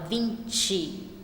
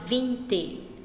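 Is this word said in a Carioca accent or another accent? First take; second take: Carioca; another accent. First: It is said in a Carioca accent. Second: It is said without a Carioca accent. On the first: "um carioca fala" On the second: "eu falo"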